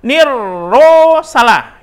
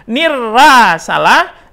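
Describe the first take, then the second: First: "nirro" slow with a rounded O; second wrong take. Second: "Nirra" slow with an A vowel; wrong take. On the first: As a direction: show "nirro" as wrong too. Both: Shown as a demonstration.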